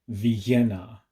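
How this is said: The name is said with a heavy Spanish accent. The speaker calls it right. "pronounced with a very heavy Spanish accent"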